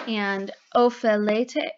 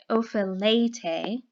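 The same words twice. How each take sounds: First: Ophelete, said at an even reading pace. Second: Ophelete stretched out, syllable by syllable; slow repeat. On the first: Teacher reading the plural form to the class, plainly. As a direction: read Ophelete once, cleanly, as a paradigm form. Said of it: "reading the paradigm aloud". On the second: Teacher repeating the plural form for students, slowly drawn out. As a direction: drag out Ophelete so the students catch every syllable. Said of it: "repeats the form slowly". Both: Shown as a demonstration.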